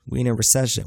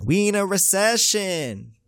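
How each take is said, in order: First: Said in the usual way. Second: High, drawn-out exclamation; slow, high-pitched comic outcry; exclaimed repeat. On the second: Acted. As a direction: stretch it out way up high. Repeats the line, hammed up higher.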